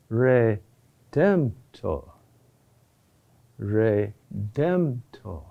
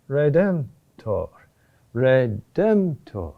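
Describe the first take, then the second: First: Redemptor very slow and low, RE set apart as its own beat; rhythm falling on first syllable. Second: Redemptor said slowly, falling to rest on TOR; elementary rhythmic curve. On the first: Teacher adding another curve before redemptor, slow, low, weight falling on RE. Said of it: "which falls on that first syllable". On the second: Chant teacher showing the elementary rhythmic curve, redemptor slow and falling. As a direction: draw out redemptor in an even rhythm, ending on a fall. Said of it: "elementary rhythmic curve". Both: Shown as a demonstration.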